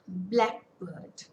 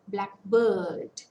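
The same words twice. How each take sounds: First: The stress is on the first part. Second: The stress is on the second part. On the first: It names a particular kind of bird. "In nouns, stress falls on the first part of the word" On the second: "In adjectives, the stress falls on the second part"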